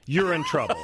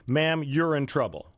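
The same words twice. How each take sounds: First: Laughing through the words. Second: Said in the usual way. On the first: Real, not acted. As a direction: say it while cracking up. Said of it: "now you're laughing". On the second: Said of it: "I would call this story".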